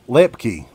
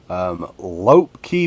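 First: The first syllable sounds like 'lep'. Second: The first syllable sounds like 'lope'. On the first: The speaker calls it right. "there you go" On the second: The speaker calls it wrong. "I'm probably not pronouncing that right"

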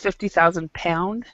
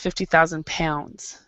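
First: The last word ends without an s sound. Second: The last word ends with an s sound. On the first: This is how British speakers say it. "British English, they do not pronounce the S. So for them" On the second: This is how American speakers say it. "in American English, we pronounce the S in pounds"

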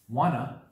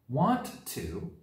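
First: The words are reduced and blended together. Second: Both words are said in full.

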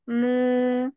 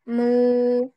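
First: The vowel is directed up and sounds nasal. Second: The vowel is directed down and sounds oral. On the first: The speaker calls it wrong. "Takutnya kalau ke atas. ... ini masuk ke khoisum lagi" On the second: The speaker calls it right. "tapi ke bawah"

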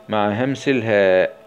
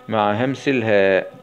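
The two takes are said the same way.

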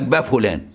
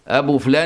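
First: The first word is shortened to ba. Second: The first word is said in full as abu. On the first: The speaker calls it wrong. "خلافا لليمنيين، ... يقول لك با فلان" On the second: The speaker calls it right.

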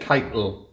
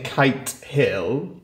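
First: It is run together as one word. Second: It is said as two separate words. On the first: This is how locals in the dialect say it. "they say Keitel" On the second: This is the standard form of the name. "instead of saying Kite Hill"

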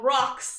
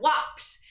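First: The word is said clearly with crisp consonants. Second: The word is mumbled and its consonants are blurred.

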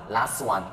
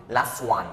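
No difference in how they are said.

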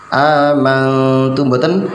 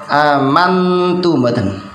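The two takes are said the same way.

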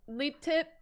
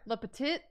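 First: The name does not sound like 'le petit'. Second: The name sounds like French 'le petit'. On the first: The speaker calls it wrong. "Leaptit is one of the ways Julia's last name gets mispronounced" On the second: The speaker calls it right. "It's not that hard. It's the beginning of like so many restaurants"

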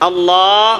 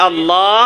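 Both takes have the same delivery.

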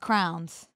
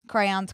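First: The word is said in an older regional way. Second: The word is said the usual standard way.

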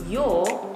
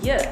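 First: The word has a full, strong vowel. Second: The word has a short, reduced vowel. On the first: "Your becomes you" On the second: "In this form, they're called weak forms"

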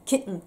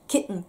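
No difference in how they are said.

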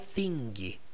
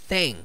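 First: A final G sound is heard after the N. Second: No G sound is heard after the N. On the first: The speaker calls it wrong. "Eu não falo thing" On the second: The speaker calls it right. "você não pronuncia a letra G"

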